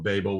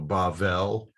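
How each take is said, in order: First: The second consonant is a hard b sound. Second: The second consonant is a soft v sound. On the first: This is the English form of the name. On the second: This is the Hebrew form of the name.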